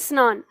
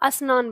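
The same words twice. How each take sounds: First: The word begins directly with the s sound. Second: An extra i vowel is heard before the s. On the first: "जैसे हम बोलते हैं स्नान" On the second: "कुछ लोग स्नान बनाते बोलते हैं उसको"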